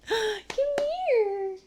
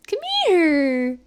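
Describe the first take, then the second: First: Gasping, high cooing call; overwhelmed by cuteness. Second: Said in the usual way. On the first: Real, not acted. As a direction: coo at the dog, melting. Calling the dog, gasping.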